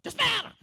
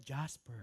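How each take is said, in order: First: Loud high yelling call of a name; shouted name. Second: Soft call. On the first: Calling someone by name with a sharp yell. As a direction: yell the name across the house. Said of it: "laging pasigaw pag tinawag ka". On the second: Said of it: "Pero masarap, sarap nga yan". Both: Retold or imitated.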